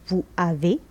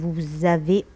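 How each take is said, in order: First: The s of vous is silent, no link. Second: The s of vous links as a z sound. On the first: The speaker calls it wrong. "on n'a pas dit vous avez" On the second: The speaker calls it right. "on a dit vous avez"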